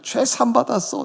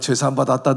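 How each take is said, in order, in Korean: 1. 들뜨고 너무 기뻐하는 어조로 말해요. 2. 밋밋하고 들뜨지 않은 어조로 말해요. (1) "말할 수 없는 정말 감격 속에서 밤새도록 펄펄 뛰는 거야" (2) "그냥 밋밋하게"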